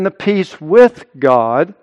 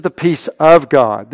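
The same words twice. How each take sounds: First: "with" stressed and lifted in pitch. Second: "of" punched, not reduced; stress on OF. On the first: Preacher telling two kinds of peace apart, stressing "with". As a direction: punch "with" to set up a contrast. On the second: Preacher telling two kinds of peace apart, stressing "of". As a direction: lean hard on "of" for the contrast. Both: Real, not acted.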